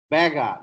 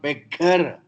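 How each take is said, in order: First: The middle g sound is short and single. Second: The middle g sound is held and doubled. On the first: The speaker calls it right. "No gemination possible in English" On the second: The speaker calls it wrong. "not beggar"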